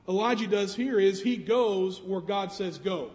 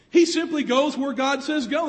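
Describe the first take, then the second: First: Said in the usual way. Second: "He simply goes where God says go" raised and louder, stressing simply; emphatic restatement. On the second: Shown as a demonstration. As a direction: lean into simply.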